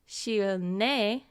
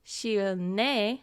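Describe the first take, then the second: First: The middle consonant sounds like N. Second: The middle consonant sounds like N.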